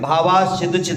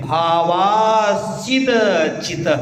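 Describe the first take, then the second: First: The syllables are run together without breaks. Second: Each syllable is said separately and distinctly. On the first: The speaker calls it wrong. "नहीं सीधा ऐसे नहीं बोल, ... ऐसा नहीं" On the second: The speaker calls it right. "एक एक शब्द का उच्चारण होना चाहिए"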